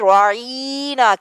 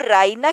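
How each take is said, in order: First: The middle vowel is drawn out long. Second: The middle vowel is short. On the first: "आइन की जेर को जरा लंबा यानी ज- या का इजाफा कर देते थे" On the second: "राइना की बजाय"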